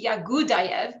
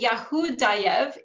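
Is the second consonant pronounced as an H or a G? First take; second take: G; H. First: The second consonant is a G sound. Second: The second consonant is an H sound. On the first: "Russian does not have the H sound and instead pronounces that as a G" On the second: "instead of saying Yahudayev"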